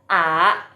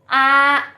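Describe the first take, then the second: First: The pitch rises from middle to high. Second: The pitch stays high and level. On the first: "yang kedua bacanya a a" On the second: "a kalau satu"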